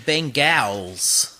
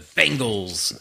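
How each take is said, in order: First: The word carries an odd, heavy emphasis. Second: The word carries ordinary, natural emphasis. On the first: The speaker calls it wrong. "I shouldn't put the emphasis like that" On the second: The speaker calls it right. "Sounds better"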